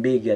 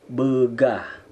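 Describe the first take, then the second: First: Bega cut short with no breathy H; wrong pronunciation. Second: Begah ending in a breathy H; correct pronunciation. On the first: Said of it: "Bukan bega". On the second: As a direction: let begah end on an audible H. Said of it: "Bukan bega, tapi begah". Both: Shown as a demonstration.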